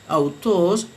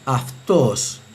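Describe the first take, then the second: First: The word begins with an 'au' sound. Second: The word begins with an 'af' sound. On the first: This follows the Erasmian reading of ancient Greek. "según la pronunciación erasmiana" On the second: This follows the Reuchlinian reading of ancient Greek. "según la pronunciación euclidiana debe leerse aftos"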